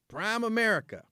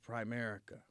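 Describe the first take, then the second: First: It begins with 'prime', like two separate words. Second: It begins with 'prim', blended into one word. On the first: The speaker calls it wrong. "everybody in the pitch kept calling it Prime America" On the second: The speaker calls it right. "oh my God, it's Primerica"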